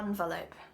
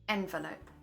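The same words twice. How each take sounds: First: The first syllable sounds like 'on'. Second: The first syllable sounds like 'en'. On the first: The speaker calls it wrong. "Not envelope" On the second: The speaker calls it right. "My accent says envelope. We say N"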